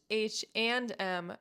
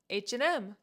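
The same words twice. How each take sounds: First: The word 'and' is said fully and slowly. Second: The word 'and' is reduced and said quickly. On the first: "This store is pronounced H and M" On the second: "when you speak fast, you can just say H and M"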